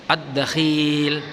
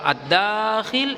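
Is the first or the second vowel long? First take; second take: second; first. First: The vowel after the kh is long. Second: The vowel after the d is long. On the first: "yang panjang huruf kha-nya" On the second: "yang panjang huruf dalnya"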